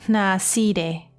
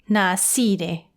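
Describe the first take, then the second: The two takes are said the same way.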